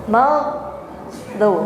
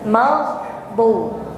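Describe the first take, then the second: Both takes have the same delivery.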